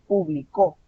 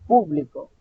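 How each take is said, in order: First: The stress is on the last syllable. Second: The stress is on the first syllable. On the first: He published, in the past. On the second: A group of people, the audience.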